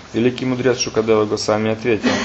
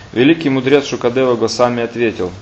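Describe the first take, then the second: The two takes are said the same way.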